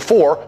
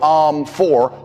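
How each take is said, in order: First: It is said confidently, with no filler. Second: It is said hesitantly, with an um.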